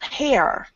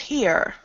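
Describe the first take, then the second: First: The vowel sounds like the one in 'hair'. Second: The vowel sounds like the one in 'here'. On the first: The speaker calls it wrong. "That word is not hair" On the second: The speaker calls it right. "That word is here"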